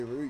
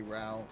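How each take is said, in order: First: "Roo" with an OO vowel, as in root; British "route". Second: "Rao" with an OW vowel, as in out; Texan-style "route". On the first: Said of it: "instead of saying route". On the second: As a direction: say "Rao" the American way, rhyming with now. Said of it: "like a fucking Texan boy". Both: Shown as a demonstration.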